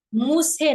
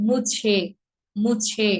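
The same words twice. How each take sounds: First: মুছে with a plain s sound, muse; মুছে said without the chh; wrong pronunciation. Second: মুছে with an aspirated chh; মুছে, mu-chhe; correct pronunciation. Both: Shown as a demonstration. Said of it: "মুছে না".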